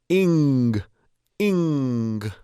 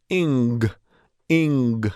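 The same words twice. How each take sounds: Both takes have the same delivery.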